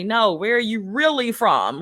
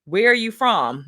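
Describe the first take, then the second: First: "really" stands out, questioning rise at the end; stress on really. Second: Said in the usual way. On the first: Retold or imitated. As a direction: lean on "really" in a retold, insistent question. Insistent second asking, retold.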